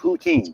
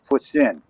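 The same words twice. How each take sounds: First: The word is said with an anglicized pronunciation. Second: The word is said with a French pronunciation. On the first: The speaker calls it wrong. "It's not" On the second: The speaker calls it right. "Spell it or say it right. It's poutine"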